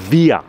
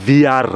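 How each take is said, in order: First: Via said quickly, final r turned to a; quick pronunciation. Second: Wir drawn out, loud, final r sounded; slow pronunciation. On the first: Teacher showing how wir sounds said fast, quick pronunciation. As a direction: punch out via, higher and louder, no r. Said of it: "আর দ্রুত বললে". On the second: Teacher showing learners the German word for we, slow pronunciation. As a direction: say wir slowly and firmly, with its r. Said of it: "যদি আমি slowly বলি". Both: Shown as a demonstration.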